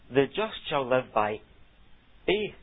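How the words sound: The stress falls on the word faith. Faith is contrasted with works of the law. "the emphasis is on the word faith"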